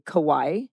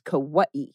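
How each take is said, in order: First: It is said the common American way. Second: It is said the traditional local way. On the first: The speaker calls it wrong. "Americans say Kauai" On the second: The speaker calls it right. "Kauai is the correct pronunciation"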